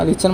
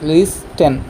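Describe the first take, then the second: First: No t sound is heard in the middle. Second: A t sound is heard in the middle. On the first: The speaker calls it right. "সঠিক উচ্চাৰণ হ'ব লিচেন" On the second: The speaker calls it wrong. "লিষ্টেন নহয়"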